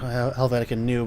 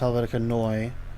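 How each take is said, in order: First: The last word sounds like 'new'. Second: The last word sounds like 'noy-eh'. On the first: The speaker calls it wrong. "some people say Helvetica New" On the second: The speaker calls it right. "but it's pronounced Helvetica Neue"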